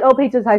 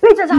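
First: It is said calmly and casually. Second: It is yelled loudly.

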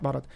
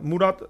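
First: The first vowel sounds like 'ah'. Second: The first vowel sounds like 'oo'. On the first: The speaker calls it wrong. "not Marat" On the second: The speaker calls it right. "Murat, not Marat"

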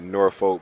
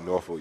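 First: The R sound is pronounced in the word. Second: The R sound is dropped from the word. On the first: This is the standard way most people say it. "that's the proper way" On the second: This is how local people say it. "You don't really say the R"

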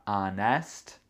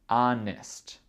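First: The last syllable has a full, clear vowel. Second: The last syllable has a weak, reduced vowel. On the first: The speaker calls it wrong. "C'est pas honest" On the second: The speaker calls it right. "c'est honest"

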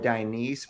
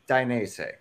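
First: The word ends without a clear 'zeh' sound. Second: The word ends with a clear 'zeh' sound. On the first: The speaker calls it wrong. "I know some people call it like Dainese or Dainese" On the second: The speaker calls it right. "but it's Dainese. ... So Z E H at the end"

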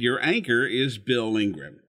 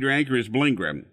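First: The words are spoken at a calm, unhurried pace. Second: The words are rushed and the name runs together. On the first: "It sounded something like this" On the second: "he rushed the pre-announce to get it in. Sounded something like this"

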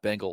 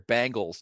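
First: The word is said with a standard American accent. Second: The word is said with a Pittsburgh accent.

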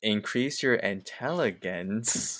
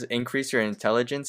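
First: The phrase is pronounced in a garbled way. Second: The phrase is pronounced in the standard way. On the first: The character is not smart enough to read it. The speaker calls it wrong. "I'm trying to read it in, like, how he reads it" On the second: This is what the text actually says. The speaker calls it right. "I want to read it correctly"

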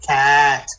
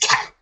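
First: The word is said slowly, sound by sound. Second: The word is said quickly, as one unit. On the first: "So say it slow" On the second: "Say it fast"

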